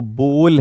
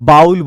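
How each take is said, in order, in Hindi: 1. स्वर 'oh' जैसा सुनाई देता है। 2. स्वर 'ow' जैसा सुनाई देता है। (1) "वो बोल है" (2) "बहुत सारे लोग बाउल बोलते हैं"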